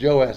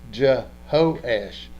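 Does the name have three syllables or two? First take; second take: two; three. First: The name is said without the middle h syllable. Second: The name is said with a middle h syllable. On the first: "instead of just Joash" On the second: "I would pronounce the H just because I understand the Hebrew behind it"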